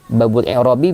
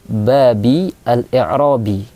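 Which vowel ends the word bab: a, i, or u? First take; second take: u; i. First: The first word ends in a u vowel. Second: The first word ends in an i vowel. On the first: The phrase is the subject or predicate of an omitted partner. The speaker calls it right. "cara baca yang pertama ... berharokat dhammah" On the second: The phrase follows an omitted preposition. The speaker calls it wrong. "Cara baca yang ketiga berharokat kasrah"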